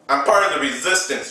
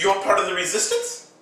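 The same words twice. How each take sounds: First: Said in the usual way. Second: Quick, high rising question; mock surprised echo. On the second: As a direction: echo it back in higher-pitched disbelief. Acts surprised echo of the claim.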